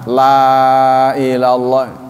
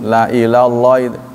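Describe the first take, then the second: First: The vowel in 'la' is long. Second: The vowel in 'la' is short. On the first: They will not be gathered to God. The speaker calls it wrong. "kalau la-nya dibaca panjang" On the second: They will be gathered to God. The speaker calls it right. "la-nya nggak panjang"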